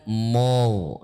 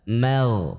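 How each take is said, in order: First: The m sound is thick and heavy. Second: The m sound is thin and light. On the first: The speaker calls it wrong. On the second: The speaker calls it right. "mim tipis"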